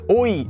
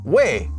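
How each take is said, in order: First: The two vowels glide from o to i. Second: It is a single 'weh' sound. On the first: The speaker calls it wrong. "Oi, oi, what? Wait, wait, no" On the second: The speaker calls it right. "It's pronounced as way"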